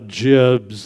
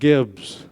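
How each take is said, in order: First: It starts with a soft j sound. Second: It starts with a hard g sound. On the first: The speaker calls it right. "like giblets" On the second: The speaker calls it wrong. "not gibs"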